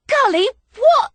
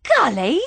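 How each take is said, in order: First: High, loud startled cry of his name; shocked. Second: Said in the usual way. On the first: Acted. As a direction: yelp it out in shock. Shocked as he grabs her.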